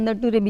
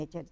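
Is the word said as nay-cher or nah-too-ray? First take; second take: nah-too-ray; nay-cher. First: The word is said as nah-too-ray, letter by letter. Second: The word is said as nay-cher. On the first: The speaker calls it wrong. "નટુરે નામની joke છે" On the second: The speaker calls it right. "આ નેચર છે"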